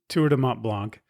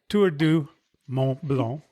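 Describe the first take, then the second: First: The name is pronounced the English way. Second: The name is pronounced the French way.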